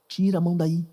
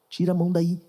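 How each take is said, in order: The two takes are said the same way.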